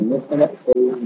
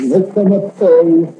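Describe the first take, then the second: First: Said in the usual way. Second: Insist, drawn out and firm; emphatic repeat. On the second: Acted. Condemned man refusing to say where the rum comes from, firm.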